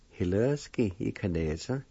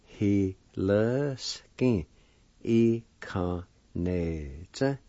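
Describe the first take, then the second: First: Said in the usual way. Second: Both parts slow and stretched out; syllable by syllable. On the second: Shown as a demonstration. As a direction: join the parts slowly, holding each syllable. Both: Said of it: "And together".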